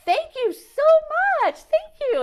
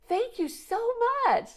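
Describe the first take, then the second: First: High and louder, sing-song thank you; loud cheerful thanks. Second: High, sing-song thank you to a rude driver; sweetly thanking. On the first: Shouting thanks across at the driver who asked again. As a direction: call it across so he hears, beaming. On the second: Thanking the glaring driver with sugary brightness. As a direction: kill him with kindness. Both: Retold or imitated.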